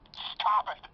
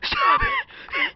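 First: It is said plainly, without laughing. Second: It is said laughing and wheezing.

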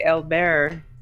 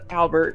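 First: The name is said with a French accent. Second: The name is said with an English accent.

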